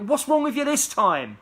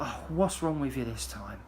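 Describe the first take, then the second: First: It is said in an angry tone. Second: It is said in a casual, fed-up tone.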